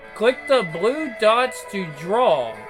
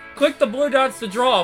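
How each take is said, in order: First: It is read slowly. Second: It is read fast.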